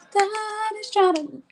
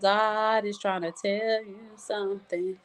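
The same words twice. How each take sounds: First: Sung, much higher, slow held notes; sung gospel line. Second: Slow, softer singing on held notes; sung gospel line. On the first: Voicing what grieving people feel, sung high. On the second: Voicing what grieving people feel, sung gospel line. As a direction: sing it slowly and quietly. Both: Retold or imitated.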